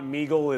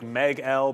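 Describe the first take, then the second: First: It is said as one word rhyming with eagle. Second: It is said as 'Meg' followed by the letter L. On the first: The speaker calls it wrong. "it's not Meagle" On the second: The speaker calls it right. "it's like Meg L because it's Empire"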